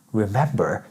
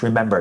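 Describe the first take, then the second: First: Quiet, lower, puzzled echo. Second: Said in the usual way. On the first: Retold or imitated. Hearing the word remember, low confused echo. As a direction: repeat the word like it makes no sense. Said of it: "You're gonna be like". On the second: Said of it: "if I told you".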